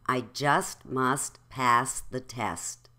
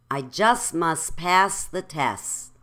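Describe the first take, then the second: First: Slow, with "just", "must", "test" each ending in T; final T's pronounced. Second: "just must", "test" said as "jus mus", "tess"; final T's dropped. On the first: Teacher modelling for repetition, every T sounded. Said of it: "say it with the T". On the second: Teacher showing what that sounds like, T's dropped. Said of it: "say the first sentence without the T's". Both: Shown as a demonstration.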